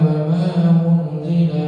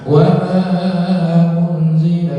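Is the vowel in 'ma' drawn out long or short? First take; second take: short; long. First: The vowel in 'ma' is kept short. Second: The vowel in 'ma' is held long. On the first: "di kedua pendek" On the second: "di pertama panjang"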